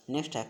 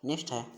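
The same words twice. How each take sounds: The two takes are said the same way.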